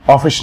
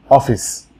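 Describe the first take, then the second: First: অফিস ending in a sh sound; wrong office. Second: অফিস ending in a sharp s, not sh; অফিস with a clean hissing s at the end; correct office. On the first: Teacher shows students the mistaken অফিস pronunciation. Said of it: "অফিস না". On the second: Teacher shows students the right অফিস pronunciation. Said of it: "স্বর মতো sound হবে না, চর মতো". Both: Shown as a demonstration.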